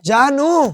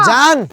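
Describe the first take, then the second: First: The name is said in full, ending in a vowel. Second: The final vowel is dropped, ending on the n. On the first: The speaker calls it wrong. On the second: The speaker calls it right.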